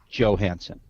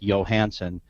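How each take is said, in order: First: The name begins with a J sound. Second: The name begins with a Y sound. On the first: "most Americans polled pronounce it Johansson" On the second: "it can be pronounced with the Y, like Johansson"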